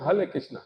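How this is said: It is said with a foreign, Chinese-style pronunciation. Foreign devotees say it this way. "वो क्या बोलते हैं?"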